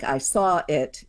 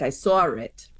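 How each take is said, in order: First: It is said without an R between saw and it. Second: An R is inserted between saw and it.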